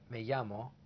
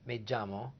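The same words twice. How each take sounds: First: The double L sounds like a Y. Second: The double L sounds like a J. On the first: "A Y sound, many parts of Latin America" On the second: "A J sound, Puerto Rico"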